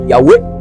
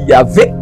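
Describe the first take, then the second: First: The name has two syllables with a w sound. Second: The name has two syllables with a v sound. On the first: "D'autres vont mal prononcer, mal traduit par Yahweh" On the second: "Il y a d'autres qui vont dire Yahvé"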